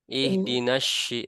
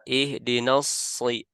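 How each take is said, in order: First: The consonant after ihdina is an sh sound. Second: The consonant after ihdina is an s sound. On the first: The speaker calls it wrong. "ihdinasy itu huruf shin ya" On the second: The speaker calls it right. "Tapi ihdinasri"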